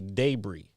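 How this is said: It is said with a British pronunciation. "they say debris"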